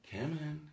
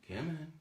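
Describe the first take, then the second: No difference in how they are said.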